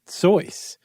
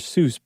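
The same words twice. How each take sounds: First: The name gets its original family pronunciation. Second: The name gets its familiar English pronunciation. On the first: This is how the family said the name. The speaker calls it right. "the correct pronunciation is Seuss" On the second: This is how most people say the name. The speaker calls it wrong. "Everybody knows him as Doctor Seuss"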